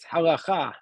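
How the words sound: It is said with a modern Israeli Hebrew pronunciation. This is the technically correct Hebrew form. "if you want to speak like technically correct, the word is halacha in, in Hebrew"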